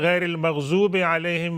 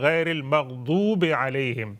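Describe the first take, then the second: First: The consonant in maghdub sounds like a z. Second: The consonant in maghdub sounds like a heavy d. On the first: The speaker calls it wrong. "और आप कहते हैं" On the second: The speaker calls it right. "जो अहले ज़ुबान है वो कहते हैं"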